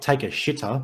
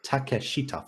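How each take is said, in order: First: Takeshita misread as English "take a shitter"; mispronounced name. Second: Takeshita in four syllables, ta-ke-shi-ta; Takeshita, four even syllables, ending "shi-ta"; correct name pronunciation. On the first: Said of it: "Not take a shitter, but just Takeshita". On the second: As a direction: say Takeshita with a short "ta-ke", not English "take". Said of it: "Four syllables". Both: Shown as a demonstration.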